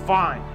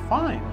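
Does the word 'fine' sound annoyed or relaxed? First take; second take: annoyed; relaxed. First: The word sounds curt and annoyed. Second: The word sounds relaxed and easygoing. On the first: The speaker is upset. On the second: Everything is okay.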